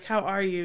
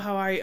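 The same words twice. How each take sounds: First: It sounds warm, slow and genuinely interested. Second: It sounds quick, offhand and uninterested. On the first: The asker has time and truly cares. The speaker calls it right. "But hey" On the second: The asker doesn't really want an answer. The speaker calls it wrong. "not just this dismissive"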